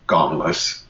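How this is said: The R sound is dropped. "the British soft R, they'd say gomless"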